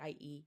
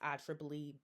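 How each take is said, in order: First: Each letter is read out separately. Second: The repeated letters are read as 'triple'. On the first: The speaker calls it wrong. "I always say I E E" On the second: The speaker calls it right. "the correct pronunciation for it is I triple E"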